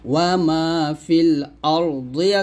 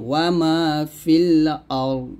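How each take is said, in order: First: The last word ends with a short i vowel. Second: The last word ends on a bare consonant. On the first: The reading continues without a stop. "এখানে ওয়া মা ফিল আরদি আছে" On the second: The reader stops at this word. "যদি আমরা এখানে থামি"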